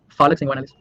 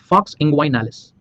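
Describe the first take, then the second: First: The first word is said as two syllables. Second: The first word is said as one syllable. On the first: "I have seen some student calling it like like you know, like Falix" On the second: "it's actually Fox inguinalis"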